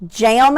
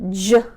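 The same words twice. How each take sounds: First: Said in the usual way. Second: "J-am" split, AM stretched very long; slow motion. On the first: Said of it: "Jam is our word". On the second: Shown as a demonstration. Teacher doing the roller coaster word, in slow motion. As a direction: ride slowly through the sounds of JAM. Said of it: "I do it in slow motion".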